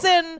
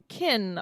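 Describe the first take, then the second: First: The name begins with an S sound. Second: The name begins with a hard K sound. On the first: The speaker calls it wrong. "in the book she says her name is Sinuant and she goes by" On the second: The speaker calls it right. "She goes by Kin"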